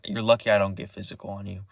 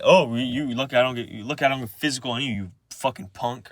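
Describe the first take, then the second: First: Said in the usual way. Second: Quick, mocking throw-back of the threat; grandpa's retort. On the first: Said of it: "And I was like". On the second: Imitating grandpa throwing the threat back, quick retort. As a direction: fire the words back fast, as imitation. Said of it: "and he just said".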